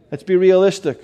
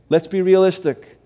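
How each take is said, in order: Both takes have the same delivery.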